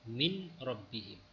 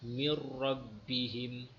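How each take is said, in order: First: The n is pronounced separately before the r. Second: The n merges fully into the following r. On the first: The speaker calls it wrong. "jadi dia akan bunyi min rabbihim" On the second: The speaker calls it right. "Contohnya kita tengok mir rabbihim"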